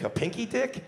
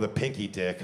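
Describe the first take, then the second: First: High, steeply rising echo; incredulous question. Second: Said in the usual way. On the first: Acted. Comic disputing the women's answer, incredulous question. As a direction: throw it back in disbelief.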